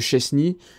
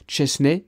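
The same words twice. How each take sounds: First: The name is said in the familiar French way. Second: The name is said with Polish pronunciation. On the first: This is how everyone usually says the name. The speaker calls it wrong. "on le connaît tous sous le nom de Chesney" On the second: This is how the name is really pronounced. The speaker calls it right. "mais si j'ai bien compris, on le prononce"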